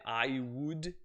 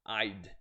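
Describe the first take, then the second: First: Both words are said in full. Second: The words are contracted into one quick syllable.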